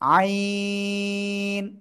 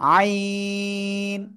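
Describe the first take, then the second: The two takes are said the same way.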